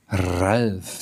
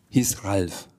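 First: "Ralf" with a long rolled opening R. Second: Said in the usual way. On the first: Acted. Dragon tries out the name from the Sams, rolling the R in "Ralf". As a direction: trill the R that starts "Ralf". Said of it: "weil ich das jetzt so gut sprechen kann". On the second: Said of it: "der hinten ein R hat".

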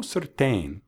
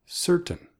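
First: "certain" as ser-TAIN, rhyming with rain, drawn out; mispronounced CERTAIN. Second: "certain" as SER-tn, high stressed first syllable; correct CERTAIN. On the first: Teacher showing listeners the mistake to avoid, mispronounced "certain". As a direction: lean slowly on a full "tain" in "certain". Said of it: "No certain, sino". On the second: Teacher correcting the mistake for listeners, correct "certain". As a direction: punch SER in "certain", swallow the second vowel. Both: Shown as a demonstration.

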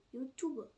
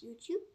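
First: "YouTube" as yoo-TOO-buh; German spelling pronunciation. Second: Said in the usual way. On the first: Shown as a demonstration. Friend correcting to own nickname, "YouTube" as yoo-too-buh. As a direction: sound the final e in "YouTube". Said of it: "Nicht YouTube".

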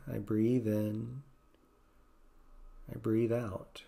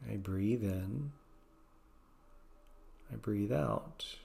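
First: Gentle mantra. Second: Slow soft repeated mantra; softer slower mantra. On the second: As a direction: let the mantra sink to a hush. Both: Shown as a demonstration. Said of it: "Maybe just gently saying".

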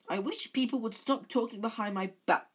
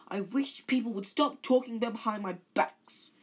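First: High, loud, tearful complaint; a milder go at the weepy ghost; choked with tears. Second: High, loud tearful wail; choked with tears. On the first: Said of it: "her voice choked with tears". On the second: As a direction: voice an upset, tearful ghost. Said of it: "in a choked voice with tears". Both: A narrator's reading.

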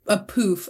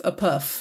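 First: "poof" with a long oo; contrasted pronunciation. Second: "puff" with a short uh; contrasted pronunciation. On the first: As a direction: say "poof" to rhyme with roof. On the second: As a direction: say "puff" to rhyme with stuff, lower. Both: Shown as a demonstration. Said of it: "But it's a puff".

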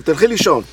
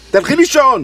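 First: Said in the usual way. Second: Louder, higher repeat of the order; insist, putting your foot down; firm order. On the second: Acted. Husband insists his wife go back to sleep, firm and louder.

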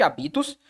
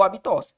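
First: Habitos with the stress on the middle syllable, BI. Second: Habitós with the stress on the last syllable, an open TÓS. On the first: Teacher showing the unaccented form of hábitos, stress on BI. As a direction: say habitos with stress moved to BI, no accent. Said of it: "Ficaria habitos, que essa palavra não existe". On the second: Teacher showing a made-up stress-final form of hábitos, stress on TÓS. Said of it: "colocando o acento aqui". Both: Shown as a demonstration.

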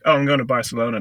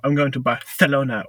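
First: Said in the usual way. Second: "Barcelona" with a th sound for the c; over-pronounced Spanish lisp. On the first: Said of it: "they're just like". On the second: Retold or imitated. Mocking people not from Spain, lisped "Barcelona". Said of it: "It's not people mispronouncing words".

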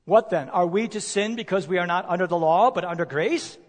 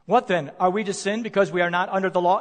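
First: Said in the usual way. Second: Rushed reading. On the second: Shown as a demonstration. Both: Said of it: "You know what that verse seems to suggest?".

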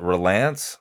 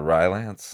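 First: "Rylance" with a reduced first vowel, ruh-LANCE; alternative pronunciation. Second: "Rylance" with a long i, RYE-lance; alternative pronunciation. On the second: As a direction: say "Rylance" starting like the word rye. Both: Shown as a demonstration. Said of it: "Is it Rylance or Rylance?".

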